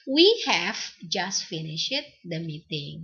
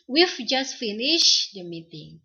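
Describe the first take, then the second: First: Have is said in full as a separate word. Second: Have is contracted onto the pronoun.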